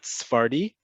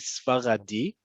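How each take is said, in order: First: The word is said with two syllables. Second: The word is said with three syllables. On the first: The speaker calls it wrong. "not Sfardi" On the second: The speaker calls it right. "in modern Hebrew, we say Sfaradi"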